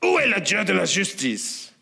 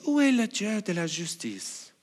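First: It is asked as an accusing complaint. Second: It is asked as a sincere, innocent question.

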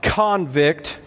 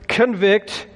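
First: The stress is on the first syllable. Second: The stress is on the second syllable. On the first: A person held in prison. The speaker calls it wrong. "not convict, okay, that's a prisoner" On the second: To convince someone of something. The speaker calls it right. "The word convict"

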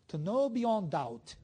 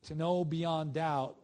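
First: It is said in a put-on Scottish accent. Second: It is said in the speaker's ordinary accent. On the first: "I should have read it with a Scottish accent" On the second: "I should have read it with a Scottish accent"

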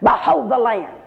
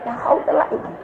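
First: It is said boldly and with confidence. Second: It is said timidly and without confidence.

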